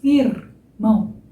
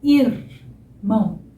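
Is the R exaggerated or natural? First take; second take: exaggerated; exaggerated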